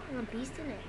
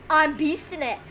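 First: Very soft, low aside; quiet remark. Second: Said in the usual way. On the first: Real, not acted. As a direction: say it low, almost to yourself. First take, muttered while playing.

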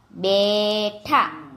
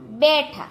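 First: બેઠા very slowly, in two syllables; slow word demonstration. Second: Said in the usual way. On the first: Shown as a demonstration. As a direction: stretch the first syllable of બેઠા. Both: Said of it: "જોડણી ઉપર જોજો".

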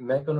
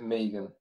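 First: Megan with a short e, MEG-an; first name variant. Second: Megan with a long ee, MEE-gan; second name variant. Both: Shown as a demonstration. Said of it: "can I just ask which one it is".

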